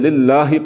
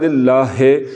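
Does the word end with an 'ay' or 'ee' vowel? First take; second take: ee; ay. First: The word ends with a short 'ee' vowel. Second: The word ends with an 'ay' vowel. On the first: The speaker calls it right. "लिल्लाहि पढ़ना है" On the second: The speaker calls it wrong. "अगर इसे पढ़ा लिल्लाहे तो हे पढ़ना"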